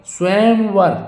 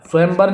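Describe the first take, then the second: First: स्वयंवर as "svayam-var", higher-pitched; clear v. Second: स्वयंवर as "svayam-bar". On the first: Teacher correcting the word, स्वयंवर with "var". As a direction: sound the "v" in स्वयंवर. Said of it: "स्वयंवर होगा". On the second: Teacher showing the mistake, स्वयंवर with "bar". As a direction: close the lips for "b" in स्वयंवर. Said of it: "स्वयंवर नहीं". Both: Shown as a demonstration.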